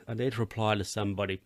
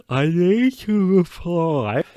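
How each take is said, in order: First: Said in the usual way. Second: High, loud, drawn-out cry; mock urgent realisation. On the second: Host suddenly remembering an unanswered message, mock alarmed.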